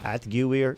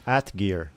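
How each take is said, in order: First: The 'gu' is sounded as a separate syllable. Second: The word is said simply as at plus gear. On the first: The speaker calls it wrong. "That can't be right" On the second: The speaker calls it right. "that's simpler"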